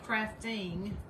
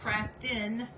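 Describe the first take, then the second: First: The word ends with a full -ing sound. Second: The word ends with a clipped -in sound. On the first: "we don't say crafting" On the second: "we're Southern"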